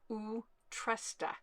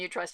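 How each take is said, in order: First: It is said with Swedish-style sounds. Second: It is read with plain English sounds. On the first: The speaker calls it right. "But apparently it's Utrusta" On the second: The speaker calls it wrong. "We just call them Utrusta because that's what it looks like"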